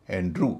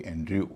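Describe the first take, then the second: First: एंड्रू said as "an-droo"; correct oo sound. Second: एंड्रयू said as "an-dryoo"; wrong-example एंड्रयू, ending in "yoo"; mistaken y-glide. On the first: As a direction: straight from r to oo in एंड्रू. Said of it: "इसका उच्चारण होगा". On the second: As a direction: slip a y after the r in एंड्रयू. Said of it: "न कि एंड्रयू". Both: Shown as a demonstration.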